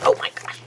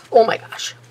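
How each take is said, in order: First: Oh my gosh, breathed out under the breath; breathy whispered exclamation. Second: Oh, high and loud, rising over my gosh; loud exclamation. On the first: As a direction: whisper it to yourself in dismay. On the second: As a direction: burst out with real exasperation. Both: Real, not acted. Dismay at lost form, then found.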